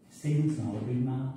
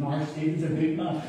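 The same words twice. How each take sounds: First: Said in the usual way. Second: Lightly voiced protective grandmother; Granny Lily. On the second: Granny defending her grandson from teasing, mildly indignant. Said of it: "wee Lily would start".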